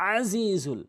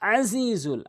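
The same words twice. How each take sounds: Both takes have the same delivery.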